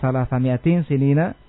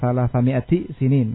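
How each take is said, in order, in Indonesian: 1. Ada bunyi n yang mengikuti mi'a sebelum kata berikutnya. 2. Tidak ada bunyi n yang mengikuti mi'a sebelum kata berikutnya.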